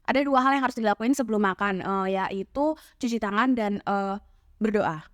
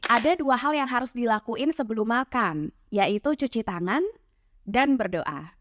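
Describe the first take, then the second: First: Hesitations are filled with 'uh' sounds. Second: Hesitations are bridged by lengthened words or pauses. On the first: The speaker is visibly struggling to think. The speaker calls it wrong. "cepat-cepat ngomong dan hasilnya malah jadi kayak gini" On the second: The thinking is hidden smoothly. The speaker calls it right. "panjangin kata terakhir yang nantinya diucapkan atau sesimpel kasih jeda"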